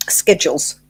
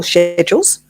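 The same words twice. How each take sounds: First: Schedules said "SKED-jools"; hard "sk" schedules. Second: Schedules said "SHED-jools"; soft "sh" schedules. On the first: Offering schedules for wherever you're from, "sk" pronunciation. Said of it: "How's that?". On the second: Alternative schedules for wherever you're from, "sh" pronunciation. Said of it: "wherever you're from". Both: Shown as a demonstration.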